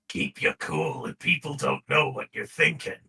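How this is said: It is said in a harsh, aggressive voice. The speaker calls it wrong. "He sounds too aggressive"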